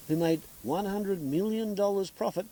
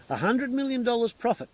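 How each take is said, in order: First: Said in the usual way. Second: Million punched high and loud; outraged emphasis. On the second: Real, not acted. Repeating the Obeid profit figure, in a loud outraged voice. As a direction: hammer home a hundred million dollars.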